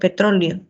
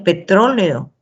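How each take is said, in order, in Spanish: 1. Las vocales finales e y o se fusionan en una sola sílaba. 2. Las vocales finales e y o son sílabas separadas. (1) "por una cuestión de ahorro lingüístico" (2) "muchas veces ya no se pronuncia petróleo"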